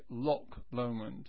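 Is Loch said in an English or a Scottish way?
English. Loch ends with a hard k sound. "The English say Loch Lomond, with a K in Loch"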